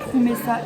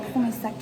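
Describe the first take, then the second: First: The name ends on a vowel, no final k. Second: The name ends with a final k sound. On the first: The speaker calls it right. "ça se dit Promessa" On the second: The speaker calls it wrong. "et pas Promessac"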